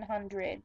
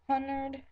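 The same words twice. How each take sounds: First: Hundred as "HUN-drid"; own pronunciation. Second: Hundred as "HUN-derd"; alternate pronunciation. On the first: Showing how they do it, hundred as "HUN-drid". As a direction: keep the dr together in hundred. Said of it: "That's how I do it". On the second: Showing a way they don't talk, hundred as "hunderd". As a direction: swap the r in hundred to make "hunderd". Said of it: "I don't say hundred". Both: Shown as a demonstration.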